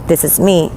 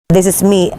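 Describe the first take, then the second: No difference in how they are said.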